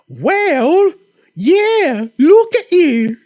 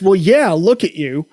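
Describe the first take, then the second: First: It is said in a put-on Monty Python accent. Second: It is said in the speaker's own accent.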